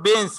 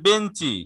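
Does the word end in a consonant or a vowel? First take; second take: consonant; vowel. First: The word ends on a consonant sound. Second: The word ends with an added i vowel. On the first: "ইংরেজি শব্দ বেঞ্চ" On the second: "রস্বই নিয়ে আসছি"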